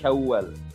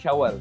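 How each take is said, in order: First: The w sound is held long and doubled. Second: The w sound is short and single. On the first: The speaker calls it right. "tapi ada tasydid" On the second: The speaker calls it wrong. "bukan Syawal"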